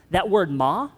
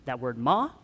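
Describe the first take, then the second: First: "ma" in the Mandarin tone for mother; "ma" as a Mandarin tone demo, pitched up. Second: "ma" in the Mandarin tone for horse; "ma" dipping low and lifting, Mandarin-style. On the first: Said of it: "it can mean mother". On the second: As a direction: start "ma" low, then let it rise. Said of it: "can also mean horse". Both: Shown as a demonstration.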